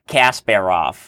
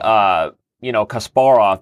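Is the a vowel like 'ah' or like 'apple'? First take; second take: apple; ah. First: The a vowels are flat, like in 'apple'. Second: The a vowels are open, like 'ah'. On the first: The speaker calls it wrong. "Not Kasparov" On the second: The speaker calls it right. "that's correct"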